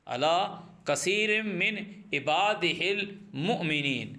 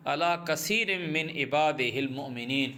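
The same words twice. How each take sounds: First: کثیر drawn out slowly, words spaced apart; slow it right down so students catch each word; slow repeat. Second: Said in the usual way. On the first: Shown as a demonstration. Teacher repeating the verse for students, slow and spaced.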